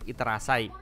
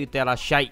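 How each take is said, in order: First: The last syllable is said as plain 'sai'. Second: The last syllable is said as 'shai'. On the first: The speaker calls it wrong. "bukan iterasai" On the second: The speaker calls it right. "pronounce-nya begitu iterashai"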